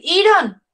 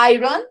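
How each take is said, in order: First: Iron as Spanish "EE-ron", the I as "ee"; wrong pronunciation. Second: Iron starting with "ai", as "AI-ron"; English pronunciation. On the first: Teacher showing students what not to say, iron as "EE-ron". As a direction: misread iron as it is written, "EE-ron". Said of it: "no vamos a decir iron". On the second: Teacher showing students what to say, iron as "AI-ron". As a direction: say iron with the I sounding like "eye". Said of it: "nosotros vamos a decir". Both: Shown as a demonstration.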